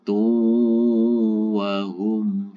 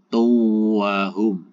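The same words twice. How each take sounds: First: It is slower with a clear held nasal hum. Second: It is rushed with no held nasal hum. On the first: The speaker calls it right. "tapi tu wahum fiha. Humnya dibaca jelas" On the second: The speaker calls it wrong. "Jangan keburu-buru karena ini ada dengungnya. Jangan tu wahum"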